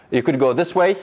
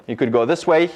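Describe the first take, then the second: No difference in how they are said.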